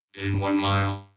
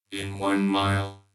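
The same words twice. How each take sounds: The two takes are said the same way.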